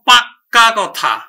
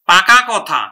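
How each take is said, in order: First: The k sound is held long and doubled. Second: The k sound is short and single. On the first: "এটাকে আমরা জোর দিয়ে বলবো" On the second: "পাকা"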